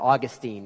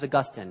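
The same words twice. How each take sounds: First: The name is said the Florida way. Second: The name is said the usual way.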